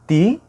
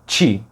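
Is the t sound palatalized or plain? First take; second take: plain; palatalized. First: The t is plain, with no hissing release. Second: The t is palatalized, sounding close to ch. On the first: "som original de Ti" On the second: "pula para um Ti"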